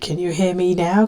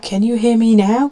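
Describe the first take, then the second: First: It is said fairly quietly. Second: It is said somewhat louder.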